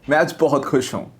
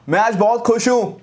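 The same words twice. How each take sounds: First: It is said with a cheerful, happy expression. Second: It is shouted loudly without sounding happy. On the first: The speaker really sounds happy. The speaker calls it right. "मैं खुश था तो expression आया।" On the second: The speaker does not sound happy. The speaker calls it wrong. "मैं चिल्लाया but वो ऐसा नहीं लगा कि मैं खुश हूं।"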